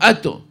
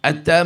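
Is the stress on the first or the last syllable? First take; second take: first; last. First: The stress is on the first syllable. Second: The stress is on the last syllable. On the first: This is how another community says it. "אומרים אתו" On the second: This is how one community says it. "אתה מלרע"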